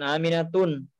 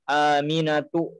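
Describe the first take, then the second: First: The name ends with an added n sound. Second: The name ends on a vowel without n. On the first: The speaker calls it wrong. "bukan Aminatun" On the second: The speaker calls it right. "cara membacanya adalah Aminatu"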